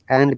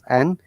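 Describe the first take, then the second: First: The final d sound is pronounced. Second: The final d sound is dropped. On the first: The speaker calls it wrong. "And becomes an" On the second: The speaker calls it right. "It should always sound like an, not and"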